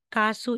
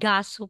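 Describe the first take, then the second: First: The word begins with a k sound. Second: The word begins with a soft g sound. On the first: This form is still acceptable. "Pero kasu is still acceptable po" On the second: This is how native speakers say it. "Korean native speaker talaga. Nagiging gasu po yan"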